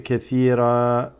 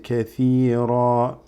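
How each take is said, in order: First: The r sound is light and thin. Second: The r sound is heavy, with a full mouth. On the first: The speaker calls it wrong. "So you don't say" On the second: The speaker calls it right. "When you stop on the ra's, they become full mouth"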